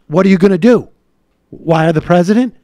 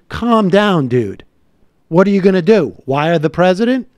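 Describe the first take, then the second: First: It is said seriously, as a real question. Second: It is said mockingly, as a dismissive joke.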